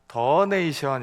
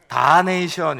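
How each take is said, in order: First: The first vowel is a short uh sound. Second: The first vowel is an open ah sound. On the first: "미국식 발음은 더네이션 이렇게 발음해야 된대요" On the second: "오 발음은 대부분 아 발음으로 사용된대요"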